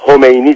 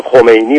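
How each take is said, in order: First: Khomeini with h for kh; Turkish-style Khomeini. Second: Said in the usual way. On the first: Shown as a demonstration. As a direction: soften the kh of Khomeini to a plain h. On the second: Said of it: "حتی یه اسم رو بگیم".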